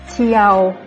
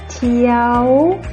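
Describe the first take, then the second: First: The word is said on a level middle pitch. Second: The word is said on a high pitch. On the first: "Le ton normal" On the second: "Le ton haut"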